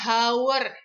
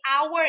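First: The word begins with an H sound. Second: The word begins without an H sound. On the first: The speaker calls it wrong. "bukan our ya" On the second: The speaker calls it right. "di sini our ya"

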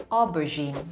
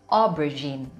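Both takes have the same delivery.

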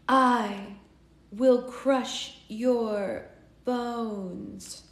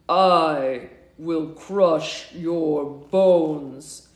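First: It is said in a normal, not deep voice. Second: It is said in a very deep voice. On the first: The speaker calls it wrong. "I was doing the wrong voice" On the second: The speaker calls it right. "And his voice was really deep"

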